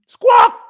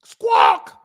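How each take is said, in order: First: High, loud crow squawk. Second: Deep shouted crow squawk; low squawk. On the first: Mocking critics as crows, high loud squawk. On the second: Mocking critics as crows, deep shouted squawk. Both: Retold or imitated.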